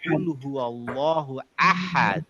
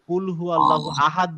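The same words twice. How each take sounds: First: The h in ahad is a tight throaty h. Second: The h in ahad is a light breathy h. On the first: The speaker calls it right. "বলব" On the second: The speaker calls it wrong. "বলব না"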